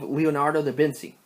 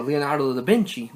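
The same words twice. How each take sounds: First: "Vinci" said as VIN-see; "Leonardo da Vinci" ending in -see; soft "c" pronunciation. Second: "Vinci" said as VIN-chee; "Leonardo da Vinci" ending in -chee; "ch" pronunciation. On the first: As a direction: say "Vinci" with an s sound, no ch. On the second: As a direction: say "Vinci" with a ch sound. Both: Shown as a demonstration. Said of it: "depending on how you pronounce it".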